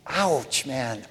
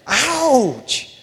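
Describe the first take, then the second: First: Small, soft "Ouch"; mock wince. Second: Drawn-out, high-pitched "Ouch"; exaggerated mock wince. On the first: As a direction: quietly feign being stung. Mock wince at convicting verse. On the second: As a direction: play up the sting of it. Bigger repeated mock wince.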